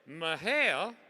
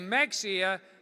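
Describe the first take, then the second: First: The word sounds like Ma-hay-lee. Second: The word sounds like Mex-ee-ah. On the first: The speaker is nearly local. "you're close" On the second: The speaker is not from Texas. "that's a dead giveaway you're not from Texas"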